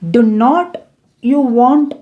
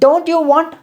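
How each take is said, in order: First: Do and not are said as two full words. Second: Do and not are merged into one syllable. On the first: "டூ அப்படிங்கிற auxiliary வேர்புக்கு அப்புறம் நாட் மட்டும் add பண்ணுங்க" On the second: "இந்த டூ நாட் இதை contract பண்ணி எப்படி பேசலாம் அப்படின்னா டோன்ட்"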